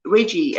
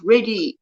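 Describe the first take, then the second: First: Reggie with a clear j sound, Rej-ee; name corrected. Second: Reggie said as Reddy, no j sound; first try at the name. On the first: Host correcting how she says a viewer's name. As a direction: Reggie fixed to a full j sound, lower and falling. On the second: Host greeting a viewer by name, first try. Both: Real, not acted.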